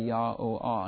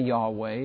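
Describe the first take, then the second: First: The name is said in three syllables. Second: The name is said in two syllables. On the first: This is the original Hebrew form. "but they in the Hebrew would say Yah-O-Ah" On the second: This is the usual English form. "We would say Yahweh in our English"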